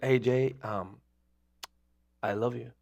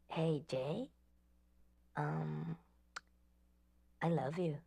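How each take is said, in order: First: It is said in his ordinary voice. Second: It is said in a put-on female voice.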